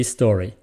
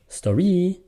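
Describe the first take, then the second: First: STO-ry, stressed at the front; "story" said the normal way, STO strong and -ry light; natural first-syllable stress. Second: Sto-REE, high and drawn out at the end; "Story" turned foreign-sounding as sto-REEE; wrong-syllable stress. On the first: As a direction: put the beat of "story" back on STO. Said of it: "it has to be story". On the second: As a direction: throw the stress of "Story" onto the last syllable. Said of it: "you're speaking another language". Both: Shown as a demonstration.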